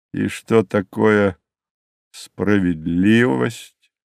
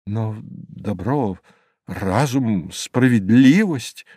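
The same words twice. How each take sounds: First: Slow, even, dismissive question; iron voice. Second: Mildly stammered appeal, word by word; faltering protest. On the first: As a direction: draw the question out, coolly unmoved. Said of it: "раздался железный голос". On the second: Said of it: "пролепетал я снова". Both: A narrator's reading.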